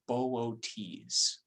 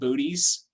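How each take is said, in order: First: The O's are split into two syllables. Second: The O's merge into one long vowel. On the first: The speaker calls it right. "pronounce this name with the O's as two separate syllables" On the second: The speaker calls it wrong. "there's a constellation named Booties"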